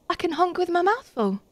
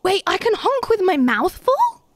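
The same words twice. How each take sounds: First: Said in the usual way. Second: High, rising to an incredulous question; surprised question. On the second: Real, not acted. Player discovers a new honk trick, surprised and questioning. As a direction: ask it in amazed delight, swooping up at FULL.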